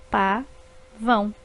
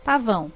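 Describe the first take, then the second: First: Pa-vão said slowly in two separate beats; syllables split apart, slow. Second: Said in the usual way. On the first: Shown as a demonstration. Teacher slowly dividing pa-vão for pupils. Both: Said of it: "formadas por duas sílabas".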